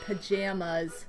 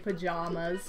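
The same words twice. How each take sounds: First: The middle syllable sounds like the word jam. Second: The middle vowel is the broad 'ah' sound. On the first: "I say pajamas. Because I like to jam" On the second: "I do not say pajamas"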